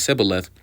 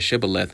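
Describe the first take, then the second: First: The word begins with an 's' sound. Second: The word begins with a 'sh' sound. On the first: The speaker is from another tribe's dialect. The speaker calls it wrong. "for he could not frame to pronounce it right" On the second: This is the local dialect's way of saying it. The speaker calls it right. "Say now Shabaloth, which says Shibboleth"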